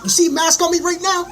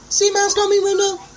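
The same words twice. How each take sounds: First: Much higher and louder, shouting the question; defiant shout at mask wearers; yelled challenge. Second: Even higher, strained shouted question; louder, higher repeat of the challenge; shrill yell. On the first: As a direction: yell it at the whole street. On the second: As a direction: push it up into a near shriek. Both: Real, not acted.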